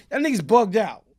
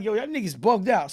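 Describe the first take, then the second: First: Irritated. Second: Said in the usual way. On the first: Retold or imitated. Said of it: "I'm getting kinda tight".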